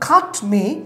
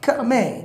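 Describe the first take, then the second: First: The t at the end of cut is pronounced. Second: The t at the end of cut is dropped.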